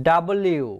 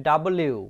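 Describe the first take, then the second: The two takes are said the same way.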